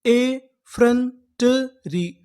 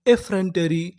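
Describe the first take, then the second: First: Very slow, ए and फ्रंटरी split apart; ए फ्रंटरी drawn out in two parts; slow syllable-by-syllable. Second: Said in the usual way. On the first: Shown as a demonstration. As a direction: build the word slowly for students. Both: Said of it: "तो पूरी meaning क्या बनी".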